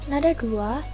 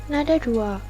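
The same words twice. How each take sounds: Both takes have the same delivery.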